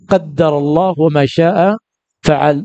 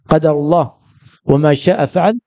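First: The d in the first word is doubled. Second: The d in the first word is short. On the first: The speaker calls it wrong. "ذاك بتشديد الدال" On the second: The speaker calls it right. "وهذا بتخفيف ماذا؟ الدال"

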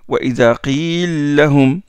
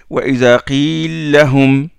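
First: The two l sounds are merged into one. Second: The same.

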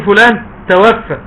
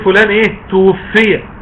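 First: The verb is said tawaffa, with active vowels. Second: The verb is said tuwuffiya, with passive vowels. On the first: The person himself did the taking of the soul. The speaker calls it wrong. "ما تقولش فلان توفى" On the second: The person's soul was taken by others. The speaker calls it right. "لا تقول فلان ايه توفي"

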